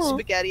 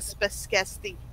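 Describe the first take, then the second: First: The middle has a plain g sound. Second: The middle has an s-k sound cluster. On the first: This is the standard adult pronunciation. "I didn't say spaghetti" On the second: This is how it was said in early childhood. "I said spesketti"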